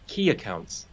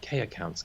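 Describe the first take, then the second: First: The first word sounds like the word key. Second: The first word sounds like the letter K. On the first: It means the most important accounts. "what they were saying was key accounts" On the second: It sounds like an account of the lowest grade. "So I was thinking the letter"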